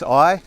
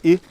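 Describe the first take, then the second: First: It sounds like the English word I. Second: It sounds different from the English word I. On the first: The speaker calls it wrong. "lots of uh, English speakers mistakenly pronounce that as I" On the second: The speaker calls it right. "but it's just I"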